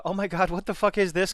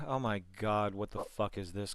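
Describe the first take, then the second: First: High, loud, exasperated disbelief; excited outburst. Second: Deadpan. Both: Shown as a demonstration. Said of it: "as compared to".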